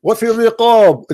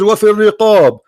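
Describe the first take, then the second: First: وفي الرقاب said quickly in Arabic, wafi riqab; quick Arabic recitation of وفي الرقاب; Arabic quote. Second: وفي الرقاب repeated quickly in Arabic, wafi riqab; fast Arabic citation of وفي الرقاب; Arabic quote again. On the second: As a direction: restate وفي الرقاب in Arabic to make the point. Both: Shown as a demonstration. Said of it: "It says".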